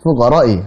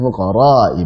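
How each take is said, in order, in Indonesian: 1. Huruf panjang dibaca pendek. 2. Huruf panjang dibaca panjang.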